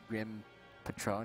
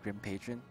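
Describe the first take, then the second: First: Patron is said like the tequila brand name. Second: Patron is said like the everyday English word. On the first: It names the liquor brand. The speaker calls it wrong. "I pronounced it Grim Patron" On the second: It names a regular customer or supporter. The speaker calls it right. "instead of Grim Patron"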